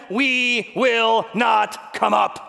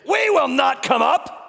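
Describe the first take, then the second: First: Very slow, loud, stubborn refusal; drawn-out refusal. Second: Loud, slow, higher defiant refusal; defiant shout. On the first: Rebels refusing Moses, slow and stubborn. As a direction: stretch every word in stubborn defiance. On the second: Rebels refusing Moses, shouting defiantly. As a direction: shout it back in open defiance. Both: Acted.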